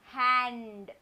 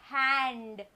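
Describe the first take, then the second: No difference in how they are said.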